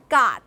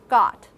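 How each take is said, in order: First: The vowel is made further forward. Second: The vowel is made further back. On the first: The speaker calls it wrong. "It's not a got" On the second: The speaker calls it right. "But it's further back"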